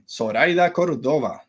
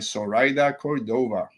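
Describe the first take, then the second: First: The name is said with a Spanish accent. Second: The name is said with an English accent. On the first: The speaker calls it right. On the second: The speaker calls it wrong.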